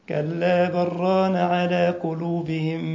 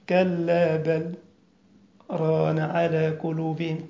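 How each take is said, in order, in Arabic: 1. الكلمات تتصل ببعضها مباشرة بلا سكتة. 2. تأتي السكتة الخفيفة مباشرة بعد الكلمة الثانية. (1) "أنا ما وقفتش هذه الوقفة، أنا وصلت" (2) "تسكت سكتة كده خفيفة بيسموها في القراءة سكتة لطيفة"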